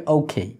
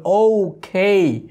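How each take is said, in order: First: "ওকে" run together lightly as okhei; joined, softened. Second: "ওকে" hugely drawn out, both syllables gliding high; overdone pronunciation. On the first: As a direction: blend "ওকে" into one quick word. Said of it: "একটু soft হয়ে যাচ্ছে". ("ওকে" একসাথে, একটু নরম করে) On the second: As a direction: stretch "ওকে" ridiculously slowly. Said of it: "অত্যন্ত হাস্যকর হয়ে যাবে". ("ওকে" হাস্যকরভাবে টেনে টেনে) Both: Shown as a demonstration.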